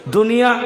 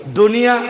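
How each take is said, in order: No difference in how they are said.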